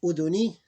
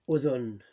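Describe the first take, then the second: First: "Udhuni" higher, louder, ending on i; full vowel ending. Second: "udhun" ending on n; vowel ending ignored. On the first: Teacher reading the word as written, vowel pronounced. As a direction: say "Udhuni" with the final i sounded. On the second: Teacher showing how you pronounce it, vowel dropped. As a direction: say "udhun" with no final i. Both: Shown as a demonstration. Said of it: "you ignore the vowel".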